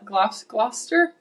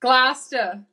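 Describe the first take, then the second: First: Gloucester said slowly as a hesitant question, as if spelled, rising; sounding out Gloucester warily with a rise; unsure Gloucester. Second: Gloucester as two syllables, glos-ter, falling and firm; corrected Gloucester. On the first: Man unsure how to say the town, careful rising Gloucester. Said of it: "I told you in Gl". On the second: Man repeating the town name correctly, firm Gloucester. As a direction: nail Gloucester the local way, short. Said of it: "There you go". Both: Shown as a demonstration.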